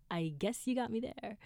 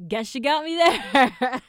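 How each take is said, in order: First: Said in the usual way. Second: Loud, drawn-out cry of surrender; mock defeated shout. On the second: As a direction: belt it out slowly, conceding with a laugh. Retold reaction, shouted then repeated.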